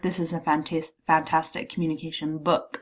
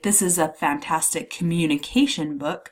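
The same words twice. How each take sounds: First: The stress falls on the word book. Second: The stress falls on the word communication. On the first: The object itself is highlighted. "I'm putting the emphasis on the book" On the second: The type of book is highlighted. "I'm emphasizing the type of book it is"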